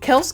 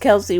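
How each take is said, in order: First: The name ends on the s sound. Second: The name ends with an added ee vowel. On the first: This is the family's own pronunciation. The speaker calls it right. "the actual pronunciation of his last name is Kels" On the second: This is how other people commonly say it. The speaker calls it wrong. "It's not Kelsey. People just added the E"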